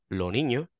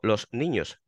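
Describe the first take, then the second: First: The s is dropped entirely. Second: The s is fully pronounced, standard northern style.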